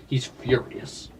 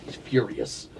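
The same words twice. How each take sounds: First: Slow, hushed whisper. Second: Said in the usual way. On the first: Shown as a demonstration. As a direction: breathe it out slowly like a secret. Same words repeated differently.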